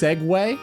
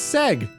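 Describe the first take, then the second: First: The word is said as two syllables, 'segway'. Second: The word is said as one syllable, 'seg'. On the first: "is pronounced Segway?" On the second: "it's Seg"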